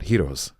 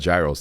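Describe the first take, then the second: First: It is said the way Greek speakers say it. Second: It is said the usual North American way. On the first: The speaker calls it right. "they're called heroes" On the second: The speaker calls it wrong. "my [name] Canadian accent ass has been calling them gyros"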